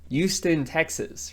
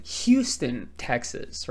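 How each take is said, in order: First: Houston said without the H, as yooston; Texan Houston. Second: Houston said with a clear H, as hyooston. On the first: Teacher demonstrating his own Texan way to say Houston. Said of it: "how I say Houston". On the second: Teacher showing how his friends say Houston, with H. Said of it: "they say it should be Houston". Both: Shown as a demonstration.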